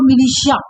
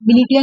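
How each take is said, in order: First: The middle consonant is an 'sh' sound. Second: The middle consonant is a 't' sound. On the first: The speaker calls it right. "मिलिशिया pronunciation होगा इसका" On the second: The speaker calls it wrong. "मिलिटिया नहीं बोलेंगे"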